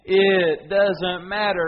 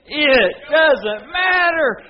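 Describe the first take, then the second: First: It is said in a plain, ordinary way. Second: It is said forcefully with strong conviction.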